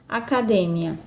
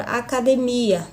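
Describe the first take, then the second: First: ACADEMIA stressed on DE, a-ca-DE-mia; Spanish stress. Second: ACADEMIA stressed on MI, a-ca-de-MI-a; Portuguese stress. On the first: Teacher contrasts the Spanish word, stress on DE. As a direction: hit the DE of ACADEMIA. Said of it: "na língua espanhola". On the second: Teacher gives the Portuguese example, stress on MI. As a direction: lean on the MI of ACADEMIA. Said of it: "na língua portuguesa eu tenho a palavra". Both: Shown as a demonstration.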